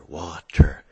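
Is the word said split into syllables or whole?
whole. The word is said smoothly as one unit. "put it together"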